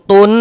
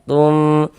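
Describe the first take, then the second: First: The final n is pronounced clearly and cut short. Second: The final nasal is blurred and held for two beats. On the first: The speaker calls it wrong. "nah itu jangan. Oh, nanti ke izhar dia" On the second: The speaker calls it right. "suaranya itu kita tahan sejenak, kita gunakan kira-kira sepanjang dua harokat"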